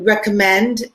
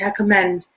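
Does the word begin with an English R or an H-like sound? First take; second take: English R; H-like. First: The word begins with an English R sound. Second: The word begins with an H-like sound. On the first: The speaker calls it right. "there'll be something like uh, to recommend" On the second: The speaker calls it wrong. "but they'll say recommend"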